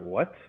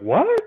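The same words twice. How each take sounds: First: The word is said with a quiet, lowered voice. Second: The word is said with a raised, loud voice.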